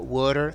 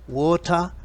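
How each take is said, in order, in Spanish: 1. Se dice con acento americano. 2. Se dice con acento británico. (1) "water en americano" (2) "water en británico"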